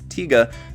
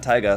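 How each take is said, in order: First: The first syllable sounds like 'tee'. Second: The first syllable sounds like 'tie'. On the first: The speaker calls it right. "the correct pronunciation is Tiga" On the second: The speaker calls it wrong. "not Taiga"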